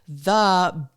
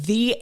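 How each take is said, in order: First: The word ends in a short 'uh' vowel. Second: The word ends in a long 'ee' vowel. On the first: "but you would say the big pond" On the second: "You say the if it's before a vowel or a vowel sound"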